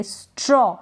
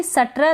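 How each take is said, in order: First: स्ट्रॉ with s run straight into tr; no vowel after the s in स्ट्रॉ; half s. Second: सट्र with a vowel after the s; wrong split str. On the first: Teacher showing the half-s blend, correct स्ट्रॉ. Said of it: "आधा स pronounce करेंगे". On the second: Teacher showing learners what not to read, mispronounced सट्र. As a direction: break सट्र open after the s. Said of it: "इसको भी सट्र तो नहीं पढ़ सकते". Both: Shown as a demonstration.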